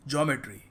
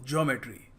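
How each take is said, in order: The two takes are said the same way.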